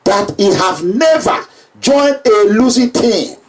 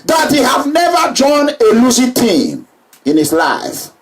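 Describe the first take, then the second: First: Slow, deliberate repeat with weight on never; slow down and lean on never. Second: Never ringing out over the rally; emphatic proclamation. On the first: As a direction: spell it out slowly, never stressed. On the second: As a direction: stress on never, called out to the crowd. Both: Shown as a demonstration. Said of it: "Remember that word".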